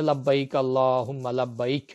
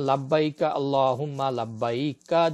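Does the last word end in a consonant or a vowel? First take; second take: consonant; vowel. First: The last word ends on the consonant 'k'. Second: The last word ends with an 'a' vowel. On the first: The reader stops at the end of the line. "আর যদি থামি" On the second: The reading continues without stopping. "যদি আমি মিলিয়ে পড়ে যাই তাহলে কা পড়তে হবে"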